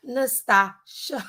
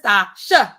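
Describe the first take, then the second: First: "Nastasha" drawn out slowly, rising onto the last syllable; exaggerated last-syllable stress. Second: "Nastasha" said louder, falling, with a punched final "sha"; emphatic name demo. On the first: Streamer reading out her own name from a comment, last syllable overstressed. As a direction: stretch "Nastasha" and lift the final "sha". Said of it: "not so much emphasis on the last syllable". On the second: Streamer showing viewers how she says her name, emphatic last syllable. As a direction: punch the end of "Nastasha" and drop it. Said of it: "That's how I say it".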